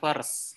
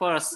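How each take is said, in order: First: It is said with a clear r sound. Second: It is said without a clear r sound. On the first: The speaker calls it wrong. "bukan first" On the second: The speaker calls it right. "ini cara bacanya first ya"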